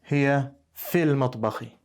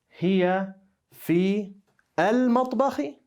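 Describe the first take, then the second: First: "Fi" and "al" run together into "fil". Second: "Fi" and "al" are said as separate words. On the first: The speaker calls it right. "remember what I said about pronouncing the words together" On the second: The speaker calls it wrong.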